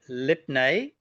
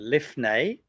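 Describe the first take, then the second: First: The middle consonant is a stopped p sound. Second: The middle consonant is a breathy f sound.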